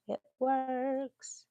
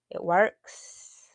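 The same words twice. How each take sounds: First: Higher, drawn-out Texan twang; Texan drawl. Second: Said in the usual way. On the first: Real, not acted. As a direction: stretch it out like a Texan. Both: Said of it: "I feel so Texan today".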